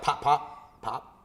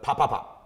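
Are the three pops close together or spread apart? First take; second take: spread apart; close together. First: The three pops are separated by longer gaps. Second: The three pops come quickly, close together. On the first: The speaker calls it wrong. "not like" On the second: The speaker calls it right. "but ... when the three together"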